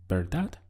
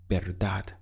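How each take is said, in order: First: "verdad" rising at the end as a question; "verdad" as an upward tag question. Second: Said in the usual way. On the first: Shown as a demonstration. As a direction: lift the last syllable of "verdad" to seek agreement. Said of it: "How would you say". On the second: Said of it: "Again, this is".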